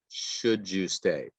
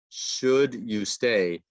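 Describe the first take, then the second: First: The d and y merge into a j sound. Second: The d and y are said separately.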